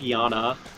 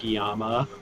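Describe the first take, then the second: First: The middle consonant is an N sound. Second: The middle consonant is an M sound. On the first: The speaker calls it right. "It's not an M. It's like Yana" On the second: The speaker calls it wrong. "not like Yama"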